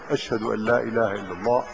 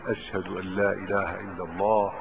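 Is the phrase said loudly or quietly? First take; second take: loudly; quietly. First: It is said in a raised, loud voice. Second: It is said in a low, quiet voice. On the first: It is announced publicly to the people. "ثم يرفع صوته بالتشهد مرة أخرى" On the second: It is meant for the caller's own ears only. "يقولها بصوت منخفض يسمع بها نفسه"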